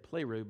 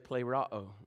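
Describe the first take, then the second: First: The word ends with an 'oo' sound. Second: The word ends with an 'ah-oh' sound. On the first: The speaker calls it wrong. "I think you're going to say pleroo, but it's not pleroo" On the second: The speaker calls it right. "But it is actually plerao"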